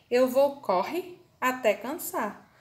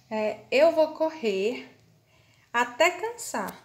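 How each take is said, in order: First: "corre" said with no final R, slowly and deliberately; R dropped. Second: "correr" with its final R clearly sounded, said slowly; correct pronunciation. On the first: Teacher to students showing the wrong word, "corre" without its R. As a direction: say "corre" as if the R were missing. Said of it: "minha frase vai ficar". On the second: Teacher to students showing the correct word, R sounded in "correr". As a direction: pronounce the R at the end of "correr" distinctly. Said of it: "Se eu escrever essa frase sem o R". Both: Shown as a demonstration.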